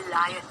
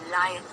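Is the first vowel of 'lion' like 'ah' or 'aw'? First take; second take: ah; ah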